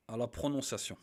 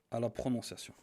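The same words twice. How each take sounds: The two takes are said the same way.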